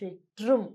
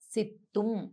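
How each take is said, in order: First: The middle consonant is pronounced tr. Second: The middle consonant is pronounced as a plain t. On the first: This is how Tamil speakers say it. "తమిళులు ఎలా పలుకుతారో సిట్రుం" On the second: This is how it is read from Telugu books. "సిత్తుం అని కూడా చదవచ్చు"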